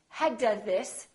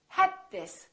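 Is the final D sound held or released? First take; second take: released; held. First: The D is released with an audible burst. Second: The D is held without an audible release. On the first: The speaker calls it wrong. "So don't say had this" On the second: The speaker calls it right. "hold your tongue behind your upper teeth for the D and keep it there"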